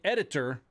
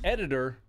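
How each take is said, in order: First: The T in the middle is pronounced clearly. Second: The T in the middle is dropped. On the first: The speaker sounds nerdy. "But if you say editor, then you're a fucking nerd" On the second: The speaker sounds ignorant. "If you say editor, you're not saying it right. You're an idiot"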